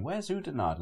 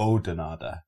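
First: Anglicised Oudenaarde as OO-denard, pitched up; mispronounced question. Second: Oudenaarde as OH-denarda, U left silent; corrected Oudenaarde, OH-de-nar-da; local pronunciation. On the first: Retold or imitated. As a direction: ask for Oudenaarde wrongly as OO-denard, in a higher voice. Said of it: "And we were going". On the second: Shown as a demonstration. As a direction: open Oudenaarde with a long "oh", final E sounded. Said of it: "because it's pronounced".

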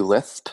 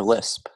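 First: "lisp" said with a lisp, like "lithp". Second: Said in the usual way. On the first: Shown as a demonstration. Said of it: "How do you type lisp". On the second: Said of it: "L I S P".

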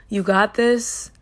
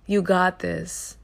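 First: Encouraging. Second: Said in the usual way. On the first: Shown as a demonstration. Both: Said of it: "all I'm gonna say is".

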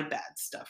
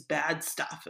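First: Bad stuff whispered like a private confession; whispered aside. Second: Said in the usual way. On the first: Shown as a demonstration. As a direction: repeat it unvoiced, under the breath. Repeated under breath.

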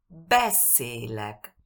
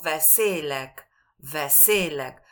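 First: Slow "beszélek" with BE punched, falling after; first-syllable stress. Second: "beszélek" with SZÉ punched instead of BE; wrong second-syllable stress. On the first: Teacher correcting the common mistake, stress on first syllable. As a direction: hit the start of "beszélek" and keep é long. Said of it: "énfasis en la primera sílaba". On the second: Teacher showing the common mistake, stress on second syllable. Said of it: "es muy común que decimos". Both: Shown as a demonstration.

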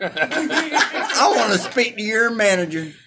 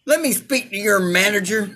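First: Slow, whiny Karen with a laugh. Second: Entitled customer demanding a manager; whiny Karen complaint. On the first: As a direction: stretch it out like an entitled Karen. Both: Pretend.

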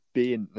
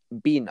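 First: "Ben" drawn out with the speaker's own short e; "Ben" said carefully as a correction; corrected pronunciation. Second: "Ben" squeezed into "Bin"; imitating a mocker saying "Ben" as "Bin"; mocked Kiwi vowel. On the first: Shown as a demonstration. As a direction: insist on "Ben" with an e, not "Bin". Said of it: "I said". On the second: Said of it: "make fun of the way I say Ben".

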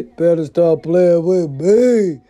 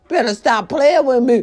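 First: Slow, drawn-out threat, each word leaned on; slow menacing warning. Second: Said in the usual way. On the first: Shown as a demonstration. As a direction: stretch it out like a final warning.

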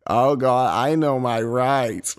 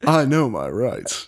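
First: Slow, nerdy Southern twang; a nerdy Southern Oswald protesting slowly. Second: Slower, smooth Southern drawl rising on I; cool and suave Southern suspect. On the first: Host tries a nerdy Southern Oswald voice. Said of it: "make him sound nerdy, but also southern". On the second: Host redoes Oswald line in a suave Southern drawl. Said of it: "Oh, nice". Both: Pretend.

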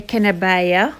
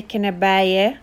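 First: كنباية ending in an "ah" sound. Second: كنباية ending in an "eh" sound. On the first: Teacher showing another regional variant, كنباية with "ah" ending. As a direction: say كنباية with a final "ah". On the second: Teacher showing some cultures' variant, كنباية with "eh" ending. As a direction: say كنباية with a final "eh". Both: Shown as a demonstration. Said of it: "end with either E H or A H".

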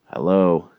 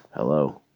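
First: Louder "Hello" with a falling end; insistent calling. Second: Said in the usual way. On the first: Retold or imitated. Caller needs friend to text back, insistent calling. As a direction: push "Hello" out harder, impatient for a reply. Second, more insistent try.

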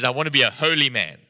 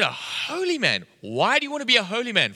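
First: Said in the usual way. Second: High, playfully astonished questioning; incredulous echo. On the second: Retold or imitated. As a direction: echo it back in mock disbelief.

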